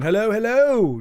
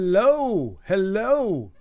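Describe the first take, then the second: First: The two hellos follow each other without pause. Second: A long pause separates the two hellos. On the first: The speaker calls it right. "just like that. You know, rolls off the tongue" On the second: The speaker calls it wrong. "a bit of a dramatic pause there between the hellos"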